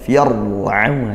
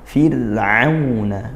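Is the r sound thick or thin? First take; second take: thick; thin. First: The r is pronounced thick and heavy. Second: The r is pronounced thin and light. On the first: The speaker calls it wrong. "bukan fir'auna, itu tebal" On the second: The speaker calls it right. "dibaca tarqiq tipis"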